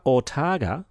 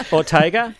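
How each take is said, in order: First: "Ortaga" with an open TAR in the middle; mispronounced name. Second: "Ortega" with TAY in the middle, questioning; corrected pronunciation. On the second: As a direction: try "Ortega" as or-TAY-guh, rising. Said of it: "I think it's Ortega". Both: Real, not acted.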